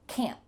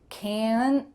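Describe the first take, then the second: First: The word ends abruptly on a stopped T. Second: The word ends with an added schwa vowel. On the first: The speaker calls it right. "it's just that stop T at the end" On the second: The speaker calls it wrong. "If you tried to add a schwa sound"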